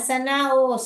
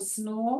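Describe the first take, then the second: First: An extra vowel splits the s and n sounds. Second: The s and n sounds blend without a vowel. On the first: The speaker calls it wrong. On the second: The speaker calls it right.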